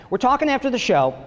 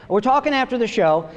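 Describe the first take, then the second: No difference in how they are said.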